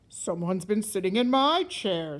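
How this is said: It is said in a great big voice.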